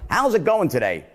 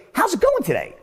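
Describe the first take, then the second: First: Said in the usual way. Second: High-pitched uptone on GOING; sounds really caring. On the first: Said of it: "I would never say something to someone in the way like". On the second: Shown as a demonstration. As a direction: lift GOING high as if you truly want to know. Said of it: "he really seems to care".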